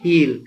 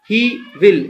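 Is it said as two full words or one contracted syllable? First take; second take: contracted; full. First: The words are merged into one syllable. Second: Both words are said separately in full.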